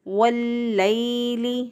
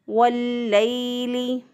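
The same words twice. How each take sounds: No difference in how they are said.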